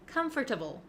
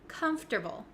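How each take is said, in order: First: It is said as spelled, com-for-table. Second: The middle 'for' is dropped, letters run together. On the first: The speaker calls it wrong. "sounds a little bit clunky and not really correct" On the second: The speaker calls it right. "this word is pronounced comfortable"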